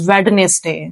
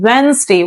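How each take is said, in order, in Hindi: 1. बीच की d ध्वनि का उच्चारण किया जाता है। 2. बीच की d ध्वनि छोड़ दी जाती है। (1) "so many people pronounce it as Wednesday. That is wrong" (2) "D is silent. We will not pronounce D. So actual word is Wednesday"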